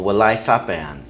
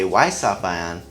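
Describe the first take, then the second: First: The first word is said in full. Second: The first word is said shortened.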